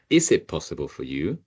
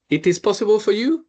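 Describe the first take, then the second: First: Said in the usual way. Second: "It is possible for you?" with the pitch climbing high on "you"; question rise at the end. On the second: Shown as a demonstration. Teacher showing students Spanish question inflection, rising on "you". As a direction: turn the statement into a question by lifting "you" sharply. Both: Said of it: "we raise our voice at the end".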